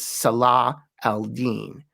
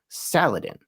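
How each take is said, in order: First: The name is said in separate Arabic parts. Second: The name is blended into one English-sounding word. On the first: The speaker calls it right. "The name is Salah al-Din" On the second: The speaker calls it wrong. "that's not really his name"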